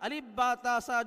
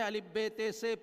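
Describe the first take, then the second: First: The letter names end in an a vowel. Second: The letter names end in an e vowel. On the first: The speaker calls it right. "वही सही होगा अरबी के एतबार से" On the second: The speaker calls it wrong. "मुझे अपनी गलती का एहसास हुआ"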